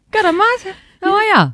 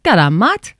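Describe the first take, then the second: First: Much higher, hammed-up Aussie greeting; high Aussie accent. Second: Lightly voiced Aussie greeting; a hint of an Aussie mate; Aussie accent. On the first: Co-host repeating her greeting, higher and more hammed-up Aussie. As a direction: pitch it up and lay on the Aussie. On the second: Co-host retelling how she greeted a friend, lightly Aussie. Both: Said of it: "I was like".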